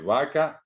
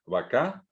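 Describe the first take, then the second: First: "vaca" stressed on the first syllable, va; Spanish word stress. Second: "vaca" stressed on the last syllable, rising on ca; Guaraní final stress. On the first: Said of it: "tiene el acento en el medio". («vaca» con acento en la primera sílaba) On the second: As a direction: push the stress onto CA in "vaca". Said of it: "El acento final no se pinta". («vaca» con acento en la última sílaba) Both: Shown as a demonstration.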